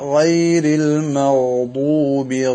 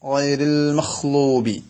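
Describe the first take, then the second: First: The consonant is a voiced gh sound. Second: The consonant is a breathy kh sound. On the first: The speaker calls it right. "ഗൈരിൽ മഗ്ദൂബി എന്നിങ്ങനെ ഗൈനെ കേൾപ്പിക്കണം" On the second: The speaker calls it wrong. "ചില ആളുകൾ ഖ ആയിട്ട്"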